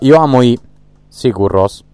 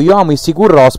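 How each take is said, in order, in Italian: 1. Il nome della band ha una pronuncia attenta, da madrelingua. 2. Il nome della band ha una pronuncia locale e informale. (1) "perché così si pronuncia" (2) "Anzi, scusa"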